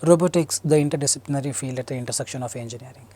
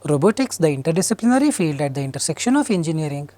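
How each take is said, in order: First: The pitch stays fairly flat and even throughout. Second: The pitch rises and falls in an exaggerated way. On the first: The speaker calls it right. "Without intonation. ... Natural" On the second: The speaker calls it wrong.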